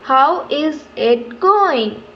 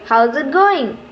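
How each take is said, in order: First: It is said slowly, word by word. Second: It is said quickly as one smooth unit. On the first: The speaker calls it wrong. "We don't say, ... Slowly? No" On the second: The speaker calls it right. "In one smooth unit"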